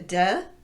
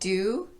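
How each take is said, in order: First: The word has a weak schwa vowel. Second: The word has its full vowel. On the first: "to duh" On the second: "reducing do"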